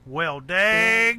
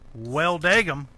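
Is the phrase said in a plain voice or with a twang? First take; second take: twang; plain. First: It is said with a drawling country twang. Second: It is said plainly, without a twang. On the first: The speaker calls it right. "Got to put that twang on" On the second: The speaker calls it wrong. "that's obviously not how you say it"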